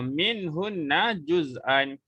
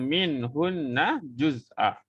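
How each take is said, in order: First: The last word ends with an n sound. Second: The last word ends with a long vowel. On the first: The reading continues without stopping. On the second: The reading stops at this word.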